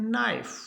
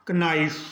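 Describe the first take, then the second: First: नाइफ starting straight on N; silent K. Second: कनाइफ with an extra "ka" before the N; wrongly sounded K. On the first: Teacher corrects the learners' mistake, नाइफ with silent K. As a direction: drop the K and say नाइफ. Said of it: "के का नहीं होगा". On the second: Teacher mimics a common mistake, कनाइफ with K sounded. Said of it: "तो ये सब गलत है". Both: Shown as a demonstration.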